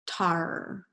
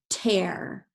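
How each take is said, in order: First: The vowel sounds like ar. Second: The vowel sounds like air. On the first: The speaker calls it wrong. "Let's try it with R" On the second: The speaker calls it right. "let's use it with air"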